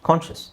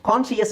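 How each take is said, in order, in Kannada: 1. ಕೊನೆಯ ಭಾಗ ಒಂದೇ ಚಿಕ್ಕ 'shus' ಉಚ್ಚಾರಾಂಶ. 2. ಕೊನೆಯಲ್ಲಿ 'us' ಗೆ ಮುಂಚೆ ಒಂದು ಹೆಚ್ಚುವರಿ 'ee' ಶಬ್ದ ಇದೆ.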